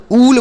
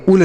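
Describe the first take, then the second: First: उल with a long oo; correct long oo. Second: उल with a short, quick u; wrong short u. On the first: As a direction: stretch the vowel of उल, like "ool". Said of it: "double ओ से बढ़ाऊ की मात्रा". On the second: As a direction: cut the vowel of उल short. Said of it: "उल नहीं पढ़ेंगे". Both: Shown as a demonstration.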